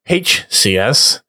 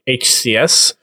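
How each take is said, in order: First: The letter H is given strong emphasis. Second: The letter H is not given extra emphasis.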